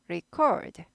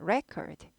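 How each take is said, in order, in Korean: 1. 강세는 두 번째 음절에 있어요. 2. 강세는 첫 번째 음절에 있어요. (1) "녹음하다 record" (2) "명사일 때는 record"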